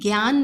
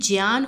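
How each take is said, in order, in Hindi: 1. शब्द 'jya' से शुरू नहीं होता। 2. शब्द 'jya' ध्वनि से शुरू होता है। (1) "ये जो है ये ज्ञान नहीं होता है" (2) "ये ज्ञान होता है, ये ज्या है"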